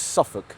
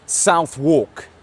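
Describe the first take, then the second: First: It sounds shortened, like the single word suffolk. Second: It sounds like the two words south walk. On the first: "It's Muscle Works Suffolk" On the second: "A lot of you guys have said that's the wrong pronunciation"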